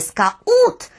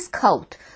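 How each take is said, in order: First: It is pronounced the Russian way. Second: It is pronounced the English way. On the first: The speaker calls it wrong. "як кажуть москалі" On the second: The speaker calls it right. "власне, «скаут». Для цього досить подивитися у транскрипцію цього слова"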